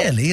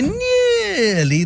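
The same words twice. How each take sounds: First: The vowel is somewhat drawn out. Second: The vowel is stretched very long.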